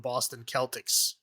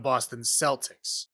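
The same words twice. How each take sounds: First: Celtics begins with a hard K sound. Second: Celtics begins with a soft S sound. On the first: This follows the word's historical pronunciation. The speaker calls it right. "that's how you're supposed to say it" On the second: This is how the team itself says the name. The speaker calls it wrong. "they say the Boston Celtics. That's not correct"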